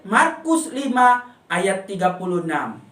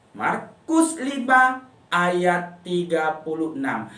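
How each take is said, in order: First: Said in the usual way. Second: "Markus lima ayat tiga puluh enam" spoken slowly, each number drawn out; teacher slowly dictating the memory verse to children; slow recitation. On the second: Shown as a demonstration. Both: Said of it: "Ayat hafalannya dihafal".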